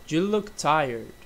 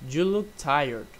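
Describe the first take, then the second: Both takes have the same delivery.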